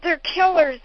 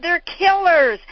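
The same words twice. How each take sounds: First: Repeated fiery warning. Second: High, loud warning from a lectern; fiery warning. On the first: Father repeating his warning to the hall, loud. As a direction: say it again to drive it in. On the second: Father warning the lecture hall, loud and high. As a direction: hammer home the danger. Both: Retold or imitated. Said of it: "He said".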